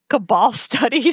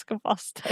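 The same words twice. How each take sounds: First: Said in the usual way. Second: Softly double-checking the phrase "Cabal studies"; muttering "Cabal studies" as a doubtful question; unsure quiet repeat. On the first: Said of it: "He's like". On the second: Real, not acted. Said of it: "Is that what he says?".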